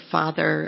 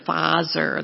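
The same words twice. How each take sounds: First: "father" said with a clear English th; plain English "father" with th. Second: "father" said as fazer, z for the th; Russian accent on "father", z sound. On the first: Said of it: "the T H that we have in mother". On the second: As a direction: swap the th in "father" for a buzzing z. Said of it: "That's how it comes out". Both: Shown as a demonstration.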